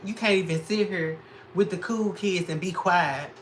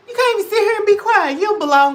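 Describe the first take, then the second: First: Said in the usual way. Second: Much higher, louder, fast shouted rant; hammed-up screaming at a hater; mock yell. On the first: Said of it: "repeated louder". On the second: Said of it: "repeated as a yell".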